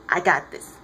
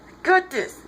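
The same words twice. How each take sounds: First: Low "I got this", contained; low assurance. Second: High "I got this", insistent; high-pitched insistence. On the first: Clark telling Diana to hold back, low assurance. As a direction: keep "I got this" down in pitch. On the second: Clark insisting to Diana he can fight, high-pitched. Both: Retold or imitated.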